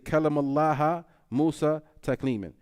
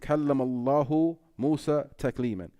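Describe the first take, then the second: First: Allah is said ending with an 'a' vowel. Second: Allah is said ending with a 'u' vowel. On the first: Musa is the one who spoke. The speaker calls it wrong. "intentionally change the dhamma to a fatha" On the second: Allah spoke to Musa with actual speech. The speaker calls it right. "This has one meaning"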